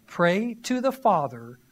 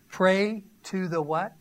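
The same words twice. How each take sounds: First: Said in the usual way. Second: Slow teasing rise on what, left open for the crowd; prompting question. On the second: Shown as a demonstration. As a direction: lead the congregation to fill in the word.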